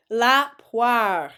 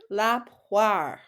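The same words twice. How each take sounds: First: "La poire" said louder and clearly; teacher modelling a word to repeat; model word. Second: Said in the usual way. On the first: Shown as a demonstration. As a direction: say it clearly for them to copy. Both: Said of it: "I'll say it and then you say it".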